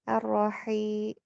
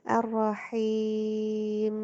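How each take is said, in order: First: The final m is released after a short hum. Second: The final m is held for a long time. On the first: The speaker calls it right. "mimnya dialirkan setengah aja" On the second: The speaker calls it wrong. "Tadi ketahan gitu"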